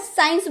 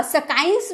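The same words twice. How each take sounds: First: साइंस, the C left unsounded; teacher's model of साइंस with silent C; silent C in science. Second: सकाइंस with a hard K after the S; सकाइंस, sounding the C as K; wrong sounded C. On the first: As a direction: say साइंस with a plain S, no K. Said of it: "साइंस बोलते हैं". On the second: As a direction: mispronounce science as sa-kains. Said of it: "सकाइंस बोलेंगे? नहीं ना". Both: Shown as a demonstration.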